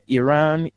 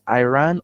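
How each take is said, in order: First: The word is pronounced in a non-American way. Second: The word is pronounced the American way. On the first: The speaker calls it wrong. "you say you have an American accent" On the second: The speaker calls it right. "what the American would have said is Iran"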